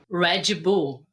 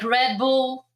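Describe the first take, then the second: First: The D sounds like G, with a vowel added. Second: The name is said in an English accent.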